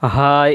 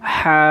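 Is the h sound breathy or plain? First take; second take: plain; breathy. First: The h is said plainly, without extra breath. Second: The h is said with a strong breath. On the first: The speaker calls it wrong. "এই অক্ষরটা আমরা কিছু কিছু জায়গায় ভুল করি। এই অক্ষরটা হা এইভাবে পড়ে থাকি" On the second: The speaker calls it right. "মুখ থেকে একটি বাতাস বের হবে"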